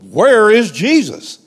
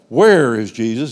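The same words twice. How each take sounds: First: It is said louder. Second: It is said at normal volume.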